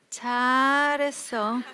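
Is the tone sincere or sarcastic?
sarcastic. It is said as sarcastic, disapproving praise.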